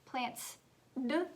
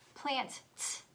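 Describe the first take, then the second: First: The word ends with a plain d sound. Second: The word ends with a plain t sound. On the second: "is it plant, t"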